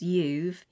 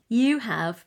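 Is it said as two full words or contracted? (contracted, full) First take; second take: contracted; full. First: The words are merged into one short syllable. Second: Both words are said in full, two syllables. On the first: "You have becomes you've" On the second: "You have becomes you've"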